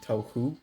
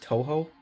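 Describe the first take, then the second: First: The second syllable ends in an 'oo' sound. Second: The second syllable ends in an 'oh' sound. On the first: The speaker calls it wrong. "I was pronouncing it Tohu" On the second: The speaker calls it right. "it's apparently pronounced Toho"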